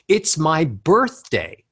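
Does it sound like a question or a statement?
statement. The pitch steps upward but sounds like a statement. The speaker sounds happy and sure. The speaker calls it right. "None of that sounded like a question"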